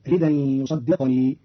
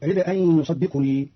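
First: "رد أن" run together as ridan, "يصدقني" with vowelless q; tanwin moved, silent qaf. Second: Said in the usual way. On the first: Shown as a demonstration. Teacher shows Qalun's reading, "رد أن" as ridan, "يصدقني" as yusaddiqni. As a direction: stop the q in "يصدقني" straight into ni. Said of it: "بإسكان القاف والياء فتصير الجملة". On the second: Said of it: "قرأ قالون كلمة رد أن".

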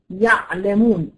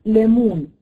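First: Slow "يعلمون" with a pharyngeal ayn; ayn contrast. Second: "يألمون" with a glottal stop after ya; hamza contrast. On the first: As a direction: let the ع of "يعلمون" sound from mid-throat, slowly. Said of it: "العين فوق الهمزة". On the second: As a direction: cut "يألمون" sharply at the hamza. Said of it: "فوقيها على طول". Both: Shown as a demonstration.

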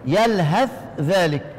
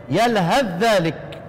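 First: يلهث ذلك with the ث and ذ both said apart, slowly; teacher showing the izhar reading of يلهث ذلك; clear separation. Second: يلهث ذلك with the ث merged into a doubled ذّ, slowly; teacher showing the idgham reading of يلهث ذلك; merged sounds. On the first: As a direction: keep the ث of يلهث distinct before ذلك. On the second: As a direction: blend يلهث straight into ذلك as one doubled ذ. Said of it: "يقرأ بالإدغام". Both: Shown as a demonstration.

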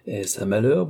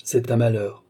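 First: Rising question on "malheur". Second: Falling, final "malheur"; grave confirmation, "malheur" going down; grave statement. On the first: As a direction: lift "malheur" at the end as a question. Father asks, son confirms. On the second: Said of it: "dit gravement Philippe". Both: A narrator's reading.

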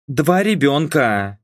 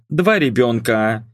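First: «Два ребёнка» stressed and drawn out slowly; emphasised. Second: Said in the usual way. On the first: A narrator's reading. Daughter makes a point to mum, «Два ребёнка» slow and emphatic. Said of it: "подчеркнула я".

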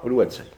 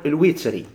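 First: الوتري as "al-watri", a after the w; short a on the waw of الوتري; fatha reading. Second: الوتري as "al-witri", i after the w; short i on the waw of الوتري; kasra reading. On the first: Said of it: "الناس غيرهم قرأ الوتري". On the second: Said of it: "الوتري بالكسر". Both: Shown as a demonstration.

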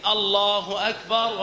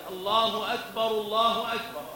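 First: الله أكبر slow and cut off from the next; words separated. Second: الله أكبر twice in one connected breath; joined phrases. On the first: Teacher demonstrates the error, separated slow delivery. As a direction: draw out الله أكبر as a detached phrase. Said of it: "لا، يفصل بين الكلمتين". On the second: Teacher demonstrates the correct way, both phrases connected. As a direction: link أكبر straight into the next الله. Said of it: "الجملة متصلة". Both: Shown as a demonstration.

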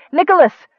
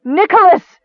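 First: High, loud call of "Nicholas"; quick, raised-voice cry of his name; startled call. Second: High, anguished cry of "Nicholas"; loud, grief-stricken wail; ragged with grief. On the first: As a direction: call out to him suddenly. Sister turns at brother's voice, calls. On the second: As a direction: cry out his name in grief. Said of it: "Nicole's voice, ragged with grief". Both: A narrator's reading.

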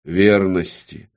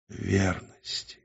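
First: Slow, firm single word; dictating an oath. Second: Slow, very soft echo; subdued repetition. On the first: Demon dictating the oath word, slow and firm. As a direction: pronounce it solemnly for repeating. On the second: Woman repeating the oath after the demon, subdued. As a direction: repeat it faintly, reluctantly. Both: A narrator's reading. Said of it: "Она должна была повторять".

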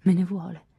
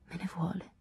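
First: Said in the usual way. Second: A soft inward murmur, much quieter; hushed thought. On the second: A narrator's reading. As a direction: think it to yourself, hushed. (pensiero sussurrato sottovoce)

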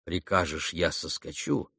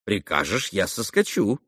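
First: Тихо и низко, повествовательно; приглушённо повтори услышанное; слова, звучащие в памяти. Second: Живая прямая речь героини; предложи это юноше от её лица; реплика Грушеньки. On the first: A narrator's reading. (негромко, как отзвук её слов) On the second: Acted. (живо, обращаясь к собеседнику) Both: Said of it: "Он слышал её слова".

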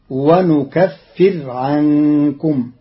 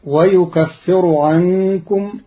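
First: ونكفر said "wa-nukaffir", ending on a bare r; slowly, n for y and no vowel after the r in ونكفر; nun, vowelless raa. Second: Said in the usual way. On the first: Shown as a demonstration. Teacher shows Qalun's reading, ونكفر with nun and jazm. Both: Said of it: "بالنون وجزم الراء".

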